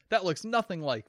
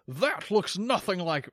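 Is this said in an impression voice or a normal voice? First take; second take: normal; impression. First: It is said in the speaker's natural voice. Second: It is said in an old-man actor impression. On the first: "I'm just going to do that in my normal voice" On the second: "That was a disgusting combination of Sean Connery, Ian McKellen"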